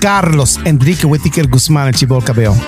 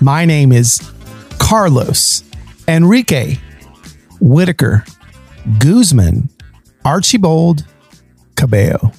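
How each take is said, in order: First: It is said fast in his normal accent. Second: It is said in a Midwestern accent.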